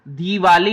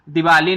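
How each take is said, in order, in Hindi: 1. 'd' के बाद का स्वर लंबा है। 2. 'd' के बाद का स्वर छोटा है। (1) "दिवाली बड़ी ई लगी है" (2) "दिवाली नहीं आती बेटा कभी भी"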